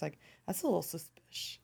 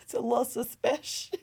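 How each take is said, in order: First: Hushed suspicious aside; conspiratorial whisper. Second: Giggling through it; laughing suspicious. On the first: Pretend. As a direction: whisper it like a secret. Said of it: "I'm gonna say that in every episode". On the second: Real, not acted. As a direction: repeat it while laughing. Repeating her catchphrase.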